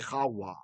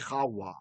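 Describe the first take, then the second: First: The middle consonant is a w sound. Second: The same.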